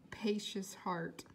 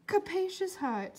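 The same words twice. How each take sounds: First: Capacious, said slowly and softly to fix the misreading; quiet correction. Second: Capacious read out clearly and higher in the character voice; corrected reading. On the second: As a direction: reread capacious properly, in character. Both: Shown as a demonstration. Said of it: "I thought it said capricious heart".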